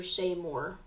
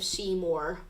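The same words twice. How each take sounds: First: Seymour with an ay vowel in the first syllable; Seymour as SAY-more. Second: Seymour with a long ee in the first syllable; Seymour as SEE-more. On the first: Storm tracker offers another pronunciation, Seymour said SAY-more. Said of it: "however you pronounce that". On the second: Storm tracker names a Texas town, Seymour said SEE-more. Gives two pronunciations of town. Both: Real, not acted.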